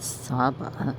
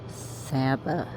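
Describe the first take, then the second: First: Saba is said the outsider, non-Texan way. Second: Saba is said the local Texan way. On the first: The speaker calls it wrong. "not Saba" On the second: The speaker calls it right. "it's pronounced San Saba"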